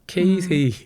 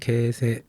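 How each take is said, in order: First: The name is said as Keisei, with separate vowels. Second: The name is said as Kese, with short vowels. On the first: This is how Koreans usually say it. The speaker calls it wrong. "한국 사람들이 케세라고 발음하기 좀 그러니까 케이세이라 그러잖아요" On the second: This is how Japanese people say it. The speaker calls it right. "케이세이 아니라 케세"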